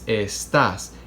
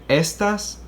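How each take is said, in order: First: The stress is on the last syllable. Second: The stress is on the first syllable. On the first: The speaker calls it right. "the vocalized accent is on the last vowel" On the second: The speaker calls it wrong. "Is it on the second to last? Do we say estas? No, we don't"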